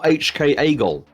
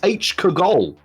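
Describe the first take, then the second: First: The K is said as a separate letter. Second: The K starts the syllable Kagol. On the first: The speaker calls it wrong. "not H K Agol" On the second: The speaker calls it right. "it's H Kagol"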